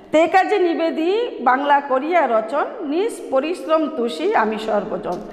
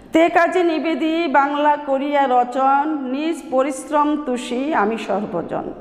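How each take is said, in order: No difference in how they are said.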